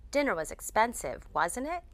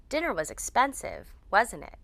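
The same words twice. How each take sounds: First: Checking question, "wasn't it" going up; upward intonation. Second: "wasn't it" falling at the end; statement-like tag, "wasn't it" going down; downward intonation. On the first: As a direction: lift the pitch on the tag "wasn't it". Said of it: "We use upward intonation". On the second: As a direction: drop the pitch on the tag "wasn't it". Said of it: "We use downward intonation". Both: Shown as a demonstration.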